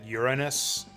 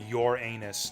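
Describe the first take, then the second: First: It is said in a way avoiding rude sound. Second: It is said in the way that sounds rude. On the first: This avoids sounding funny but is not proper. The speaker calls it wrong. "just to not have it sound funny" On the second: This is the proper pronunciation. The speaker calls it right. "to pronounce it correctly"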